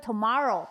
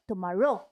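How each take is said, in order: First: The stress is not on the last syllable. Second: The stress is on the last syllable. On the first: "像我们会tomorrow" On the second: "它会tomorrow"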